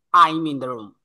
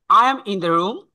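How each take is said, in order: First: "I'm" as one syllable, falling to "room"; contracted form. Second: "I am" in full, rising at "room"; full form. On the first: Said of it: "that means I'm in the room". (সংক্ষেপে "I'm", শেষে সুর নামবে) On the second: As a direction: say "I am" as two words. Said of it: "how to express these sentences". ("I am" আলাদা করে পূর্ণ উচ্চারণ) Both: Shown as a demonstration.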